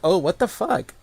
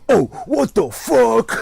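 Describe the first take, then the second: First: It is said in an amused, joking tone. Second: It is said in an angry, mad tone.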